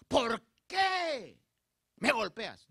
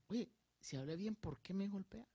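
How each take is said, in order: First: Loud, high, indignant demand; exclaimed reproach, not a question; demanding exclamation. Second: Softer, gentle asking; calm inquiring tone; calm question. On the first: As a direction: shout it as a complaint. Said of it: "Donde quizás hubiera dicho". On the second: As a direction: ask it quietly, without reproach. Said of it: "el Señor con la característica que tenía, dice". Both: Shown as a demonstration.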